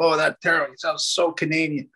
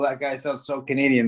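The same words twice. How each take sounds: First: Lightly voiced teasing commenter, a touch higher; mock commenter. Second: Said in the usual way. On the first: Mimicking a commenter who mocks his Canadian sound, lightly done. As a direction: tease him like a viewer in the comments. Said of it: "They go". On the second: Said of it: "Some people go".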